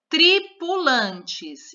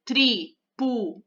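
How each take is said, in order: First: Said in the usual way. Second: Tripulantes split into tri, pu, lan, tes with pauses; syllable by syllable. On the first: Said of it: "vamos olhar por palavra". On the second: Shown as a demonstration. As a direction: say tripulantes in four separate beats. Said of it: "quatro sílabas". (tripulantes separando as sílabas)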